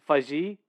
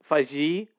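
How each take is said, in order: First: The name ends in a 'jee' sound. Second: The name ends in a 'jee' sound.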